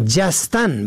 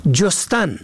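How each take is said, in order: First: جستن said "jastan", with a; short a first. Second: جستن said "jostan", with o; short o first. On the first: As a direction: say جستن as "JAS-tan". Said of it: "به فتح اول". (جستن با فتح اول، «جَستن») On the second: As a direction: say جستن as "JOS-tan". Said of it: "به ضم اول". (جستن با ضم اول، «جُستن») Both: Shown as a demonstration.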